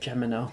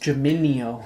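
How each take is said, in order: First: The word has three syllables, ending no. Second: The word has four syllables, ending nee-oh. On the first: The speaker calls it wrong. "You said Gemino" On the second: The speaker calls it right. "It's Geminio"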